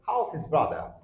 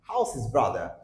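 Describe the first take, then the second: First: How and is blend into one short word. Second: The same.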